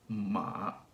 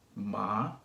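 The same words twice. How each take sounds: First: The pitch starts low in the voice. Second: The pitch rises from middle to high. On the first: "the third one starts pretty low" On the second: "So it goes from middle to high"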